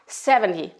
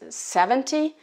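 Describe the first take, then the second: First: The T sound is nearly dropped. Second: The T sound is clearly pronounced.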